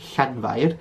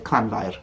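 First: It starts with a breathy hissed ll sound. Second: It starts with a hard k-like cl sound. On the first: The speaker calls it right. "which is the way I would say this word on screen now" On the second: The speaker calls it wrong. "some people say clanfair, which I don't personally like"

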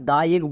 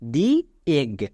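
First: 'The' is said with a short 'uh' vowel. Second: 'The' is said with a long 'ee' vowel. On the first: The speaker calls it wrong. "একে আমরা দা egg বললে ভুল হয়ে যাবে" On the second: The speaker calls it right. "তাই এর উচ্চারণ হবে দি এগ"

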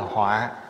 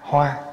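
First: The word is said with a heavy tone. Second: The word is said with a level tone. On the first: A calamity. "dấu nặng ở dưới là họa" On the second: A flower. "chữ hoa, H O A"

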